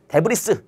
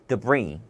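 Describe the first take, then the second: First: An s sound is pronounced at the end. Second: No s sound is pronounced at the end. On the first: The speaker calls it wrong. "데브리스 이게 아니라" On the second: The speaker calls it right. "S가 소리 나지 않는 경우도 있다"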